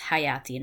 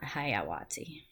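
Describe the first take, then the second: First: The word is said without a w sound. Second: The word is said with a w sound. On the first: The speaker calls it right. "So it's hayati" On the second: The speaker calls it wrong. "not hayawati"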